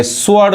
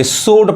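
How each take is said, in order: First: स्वॉर्ड with the w sounded; स्वॉर्ड misread with audible w; wrong pronunciation. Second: स्वॉर्ड with no w, "sord"; स्वॉर्ड as "soat", straight from s to o; silent W. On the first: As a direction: say स्वॉर्ड as "swo-ard". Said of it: "गलत हो जाएगा". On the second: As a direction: say स्वॉर्ड dropping the w. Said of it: "डब्ल्यू silent है". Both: Shown as a demonstration.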